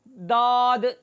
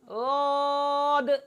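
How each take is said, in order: First: The first consonant sounds like a plain d. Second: The first consonant is soft, made with the tongue's side. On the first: The speaker calls it wrong. "दाल के मखरज में ... तो उस तरह इसको पढ़ना" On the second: The speaker calls it right. "ज़ुबान का लंबाई वाला हिस्सा ऊपर की दाढ़ों की जड़ में लगाकर नरम करके"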